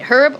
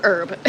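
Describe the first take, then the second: First: "herb" with the H pronounced; sounded H. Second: "herb" with no H, like "urb"; silent H. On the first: Host asking a picky viewer, "herb" with sounded H. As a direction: start "herb" on an audible H. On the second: Host giving a picky viewer the alternative, "herb" with silent H. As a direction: drop the H and start "herb" on the vowel. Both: Shown as a demonstration. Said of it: "How do you pronounce it?".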